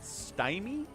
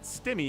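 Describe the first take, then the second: First: The first vowel sounds like 'eye'. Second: The first vowel sounds like 'it'. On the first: The name is spelled with one M. "if I see one M, I pronounce it Stymie" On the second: The name is spelled with two M's. "you gotta get two M's in there"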